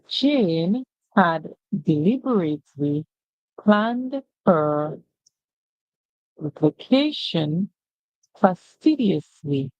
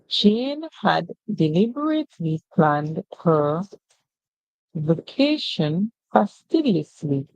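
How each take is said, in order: First: The sentence is read very slowly. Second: The sentence is read at a faster pace. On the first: "where we read very slowly" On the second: "we're going to be reading a bit faster"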